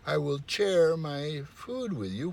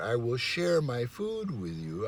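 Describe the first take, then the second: First: The word 'share' begins with a hard ch sound. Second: The word 'share' begins with a soft sh sound. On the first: The food will be sat down for someone. The speaker calls it wrong. "I will say, ... which is totally nonsense" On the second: The food will be given to others. The speaker calls it right. "instead of saying share"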